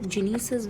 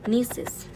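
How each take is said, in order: First: The word begins with a g sound. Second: The word begins with an n sound. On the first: The speaker calls it wrong. "कोई लोग जिनीसिस भी बोल देते हैं" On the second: The speaker calls it right. "नीसिस will be the correct pronunciation"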